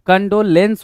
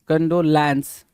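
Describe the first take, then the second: First: The last syllable has the vowel of 'bed'. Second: The last syllable has the vowel of 'man'. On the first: The speaker calls it right. "कंडोलेंस होता है" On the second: The speaker calls it wrong. "लैंस नहीं होता"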